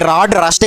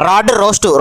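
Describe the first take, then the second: First: The second word has a short 'u' vowel. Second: The second word has a long 'o' vowel. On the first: The speaker calls it wrong. "అది rod రస్ట్ కాదురా" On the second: The speaker calls it right. "రోస్ట్ అని సరిగ్గా పలకడమే రాదు"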